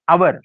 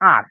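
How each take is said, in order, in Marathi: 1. हा शब्द दोन अक्षरी म्हटला जातो. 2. हा शब्द एक अक्षरी म्हटला जातो. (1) "खूप जण काय म्हणतात आवर म्हणतात" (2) "फक्त म्हणायचं आर"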